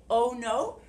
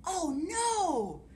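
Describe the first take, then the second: First: "Oh no" said a bit louder and higher. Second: "Oh no!" in a big, high, loud wail; dramatic oh no. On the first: Teacher shows children the line to say, lively. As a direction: model the "Oh no" for the class to copy. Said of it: "when I say". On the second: Teacher demonstrating the story refrain, dramatic high wail. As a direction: throw "Oh no!" out like real dismay. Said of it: "you can do this". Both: Shown as a demonstration.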